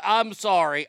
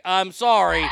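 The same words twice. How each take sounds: First: Said in the usual way. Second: Shouted apology. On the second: Real, not acted. Host objecting to the movie casting.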